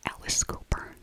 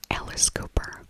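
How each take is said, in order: Both takes have the same delivery.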